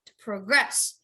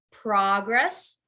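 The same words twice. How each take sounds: First: To pro-GRESS, the verb; emphasize the end of progress; stress on second syllable. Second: PROG-ress, the noun; emphasize the beginning of progress; stress on first syllable. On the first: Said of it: "to progress is the verb". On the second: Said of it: "progress is the noun". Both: Shown as a demonstration.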